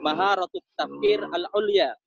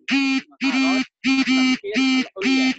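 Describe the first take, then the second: First: Said in the usual way. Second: "Maharat Tafkir Al-Ulya" said very slowly, higher and louder, each word stretched; slow emphatic term. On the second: Shown as a demonstration. Lecturer drilling the Arabic term for his students, slow and loud. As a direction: spell out "Maharat Tafkir Al-Ulya" slowly and loudly so the class catches it. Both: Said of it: "cara bahasa Arabnya itu".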